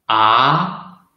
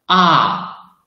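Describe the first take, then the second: First: The syllable is said in the second tone. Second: The syllable is said in the fourth tone. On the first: "the second tongue" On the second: "the fourth tongue"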